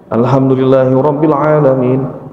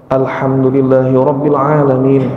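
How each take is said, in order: Both takes have the same delivery.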